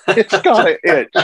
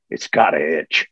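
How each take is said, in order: First: Laughing repeat. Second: Wolverine's line. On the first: Real, not acted. Repeating the line, cracking up. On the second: Retold or imitated. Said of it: "He says".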